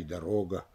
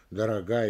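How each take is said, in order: First: "дорога" stressed on РО; stress on middle syllable. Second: "дорога" stressed on ГА; stress on last syllable. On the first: Lecturer showing meaning change, middle-stressed "дорога". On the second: Lecturer showing meaning change, end-stressed "дорога". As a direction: save the beat for ГА in "дорога". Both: Shown as a demonstration. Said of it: "на какой слог падает ударение".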